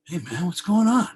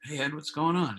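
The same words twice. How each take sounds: First: High, loud, upbeat phone greeting. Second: Said in the usual way. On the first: Retold or imitated. Rock star greets a caller on the phone, super upbeat. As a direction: imitate a delighted, super upbeat hello. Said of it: "he's, like, super upbeat". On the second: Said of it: "And I go".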